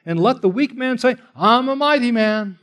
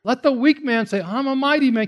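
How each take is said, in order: First: Mock boast, higher; sarcastic quote of the weak man. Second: High mocking brag; sarcastic mock bravado; sarcasm. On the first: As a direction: scoff at the weak man's bragging. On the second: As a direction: ham up the weak man's boast. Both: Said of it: "this is like sarcasm".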